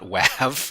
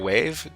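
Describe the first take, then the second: First: The vowel is short, as in 'have'. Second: The vowel is long, as in 'wave'. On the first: The speaker calls it wrong. "Not they're not wav" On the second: The speaker calls it right. "They're wave"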